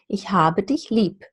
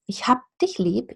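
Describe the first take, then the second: First: The b in habe is a voiced b. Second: The b in hab sounds like a voiceless p. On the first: "the letter B represents a voiced sound again" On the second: "it becomes a P"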